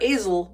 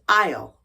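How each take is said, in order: First: The s is sounded in the middle of the word. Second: The s is silent in the middle of the word. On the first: The speaker calls it wrong. "I know it looks like azalely or azel, but it's not" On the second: The speaker calls it right. "It's aisle"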